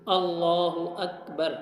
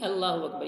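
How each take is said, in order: First: The L sound in Allahu is heavy and full. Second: The L sound in Allahu is light and thin. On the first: The speaker calls it right. "लाम को मोटा पुर करके पढ़ेंगे" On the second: The speaker calls it wrong. "ये नहीं ... ये गलत है"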